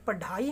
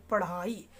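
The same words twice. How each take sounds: First: पढ़ाई with a hard ड, no flap; wrong hard ड. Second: पढ़ाई with a breathy flapped ढ़. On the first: Teacher showing students the wrong पढ़ाई. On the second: Teacher showing students the correct पढ़ाई. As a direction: say पढ़ाई as pa-Rhaai, tongue flicked forward. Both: Shown as a demonstration. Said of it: "ये पढ़ाई नहीं".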